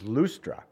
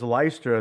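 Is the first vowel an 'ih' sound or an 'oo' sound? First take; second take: oo; ih. First: The first vowel sounds like 'oo'. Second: The first vowel sounds like 'ih'. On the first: This is the original pronunciation of the name. The speaker calls it right. "The real pronunciation is Lustra" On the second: This is the usual reading of the name. The speaker calls it wrong. "we read it as Lystra"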